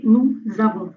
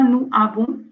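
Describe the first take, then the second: First: Nous avons linked as nou-z-avons; liaison. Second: Nous avons said as nu abɔ̃, with no z; no liaison. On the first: Teacher showing the correct linking. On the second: Teacher demonstrating the wrong version to students. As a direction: leave a gap after nous. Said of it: "C'est pas". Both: Shown as a demonstration.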